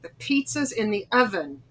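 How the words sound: It is said in a tight, irritated tone. The speaker is annoyed with the listener. "my attitude comes in, and I've got a tight face"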